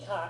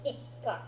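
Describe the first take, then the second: First: The k is short with no pause. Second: The k is held with a short pause. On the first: The speaker calls it wrong. "not ika" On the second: The speaker calls it right. "it's ikka"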